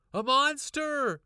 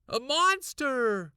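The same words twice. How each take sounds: First: High, loud, slow cry of alarm; bursting into the kitchen, loud and scared. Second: Higher, louder, slow scream; screaming it again at her parents. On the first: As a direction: shriek the word out. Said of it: "I cried". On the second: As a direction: shriek it with all you've got. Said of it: "I screamed again". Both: A narrator's reading.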